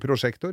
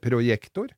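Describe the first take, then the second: First: The consonant after 'pro' is an 'sh' sound. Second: The consonant after 'pro' is a 'y' sound. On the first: The speaker calls it wrong. "Ikke prosjektor" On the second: The speaker calls it right. "men det heter projektor"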